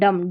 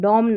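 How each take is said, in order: First: The vowel is a short uh sound. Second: The vowel is a rounded o sound. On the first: The speaker calls it right. "D ओ एम डम" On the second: The speaker calls it wrong. "डॉम नहीं"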